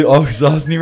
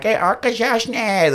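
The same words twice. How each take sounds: First: "Akwesasne" said quickly, without drawing it out; proper pronunciation. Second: "Arkashashne" in a high, drawn-out southern twang; mock your own botched "Arkashashne", slow and high; mispronounced Mohawk. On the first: Retold or imitated. Dad correcting his son's Mohawk, "Akwesasne" in its proper form. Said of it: "learn how to say Akwesasne right". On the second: Mocking his own radio attempt at Mohawk, "Arkashashne" botched with twang. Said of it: "I got this southern twang".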